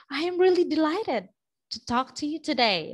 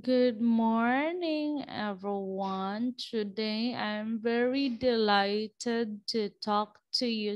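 First: Higher, fast, eager greeting; bright upbeat delighted delivery. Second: Slow, quiet, lifeless greeting; thin voice trailing off; thin-voiced dull speaker. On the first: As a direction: show real delight in the voice. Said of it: "show to them that you are". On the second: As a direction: sound like a weak speaker with no energy. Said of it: "someone who has a very thin voice". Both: Shown as a demonstration.

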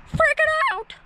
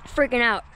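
First: A sudden high squeal of excitement; excited shriek. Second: Said in the usual way. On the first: Real, not acted. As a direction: yelp it out, losing it.

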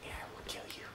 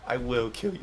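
First: Breathy whispered threat; whispering. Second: Said in the usual way. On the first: Acted. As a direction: hiss the threat under your breath. Trash talk whisper.

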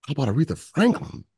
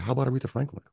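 First: "Franklin" pushed higher and louder with a rising end; emphatic repeat. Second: Said in the usual way. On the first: Retold or imitated. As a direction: lean hard on "Franklin", selling the idea.

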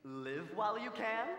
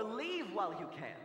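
First: "Live" said with a short, clipped i sound. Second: "Leave" said with a long, stretched ee sound. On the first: Wondering aloud at the altar, asks if it is "Live" with a short i. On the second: Wondering aloud at the altar, asks if it is "Leave" with a long ee. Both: Shown as a demonstration. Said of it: "Is she saying".

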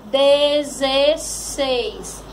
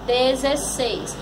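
First: "Dezesseis" very drawn out, each syllable clear; palavra bem esticada. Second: "Dezesseis" as one word, moderately slow; palavra juntada. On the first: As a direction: stretch every syllable of "Dezesseis". ("Dezesseis" muito devagar, bem pronunciado) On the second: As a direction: repeat "Dezesseis" more compactly, still careful. ("Dezesseis" inteiro, um pouco devagar) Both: Shown as a demonstration. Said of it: "Formou que palavrinha?".

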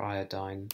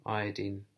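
First: "iodine" ending like "dine"; alternative pronunciation. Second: Said in the usual way. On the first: Shown as a demonstration. Offering viewers the other pronunciation, "iodine" rhyming with "dine". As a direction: say "iodine" with a long "eye" in the last syllable. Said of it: "however you want to pronounce it". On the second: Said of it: "I'll say iodine".

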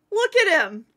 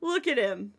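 First: Higher, louder delighted exclaim; excited. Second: Said in the usual way. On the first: Real, not acted. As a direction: point him out with glee. Repeated with more excitement.

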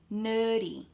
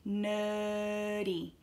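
First: Said in the usual way. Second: "Nerdy" with a long held er; slowed down. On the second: Shown as a demonstration. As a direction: stretch the first vowel of "Nerdy", no R. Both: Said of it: "practice slowing it down".

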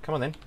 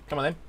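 Both takes have the same delivery.

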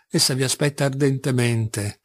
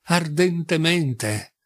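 First: Said in the usual way. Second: "ardentemente" drawn out very slowly; emphatic repeat. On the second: A narrator's reading. Mother stressing Caterina's eagerness to Alyosha, "ardentemente" slow and drawn out. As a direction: lean on "ardentemente", stretching every syllable.

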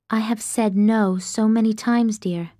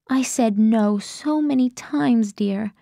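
First: Said in the usual way. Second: Slow, hushed letter reading; Grace's letter voice. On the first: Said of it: "My eyes latch on to one line again". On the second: Acted. Narrator voicing Grace's letter slowly.

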